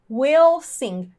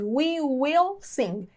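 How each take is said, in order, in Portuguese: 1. 'We will' é reduzido a uma sílaba. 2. As duas palavras 'we will' são ditas por inteiro. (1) "A forma curta, que é para a gente falar mais rápido" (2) "É a forma cheia"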